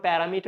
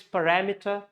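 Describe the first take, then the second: First: "parameter" said the mistaken way, accent off the second syllable; wrong pronunciation. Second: "parameter" stressed on RAM, pa-RAM-eter; correct stress. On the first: Teacher showing learners what not to say, wrong pronunciation of "parameter". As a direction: say "parameter" as the common mispronunciation. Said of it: "It's not parameter". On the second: Teacher correcting learners' pronunciation, "parameter" stressed pa-RAM-eter. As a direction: hit the second syllable of "parameter". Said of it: "it's parameter". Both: Shown as a demonstration.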